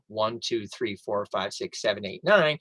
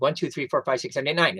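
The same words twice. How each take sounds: First: The numbers are counted at a slow pace. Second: The numbers are counted as quickly as possible.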